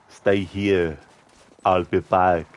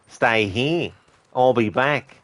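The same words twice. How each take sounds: First: It is spoken in a heavy Austrian-style accent. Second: It is spoken in an Australian accent. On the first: "the Terminator being cast as Arnie and having him be like" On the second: "having an Australian actor play the Terminator going"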